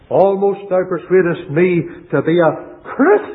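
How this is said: The stress is on "Christian".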